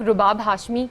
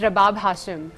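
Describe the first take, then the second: First: The name starts with 'ru' and ends 'Hashmi'. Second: The name starts with 'ra' and ends 'Hashim'. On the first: This is how most people say the name. The speaker calls it wrong. "Majority ninety percent लोग मुझे रुबाब कहते हैं, और पूरा नाम गलत होता है।" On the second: This is the name's actual form. The speaker calls it right. "It's रबाब हाशिम।"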